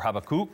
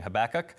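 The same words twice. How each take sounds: First: The name is said the Hebrew way. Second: The name is said the usual English way.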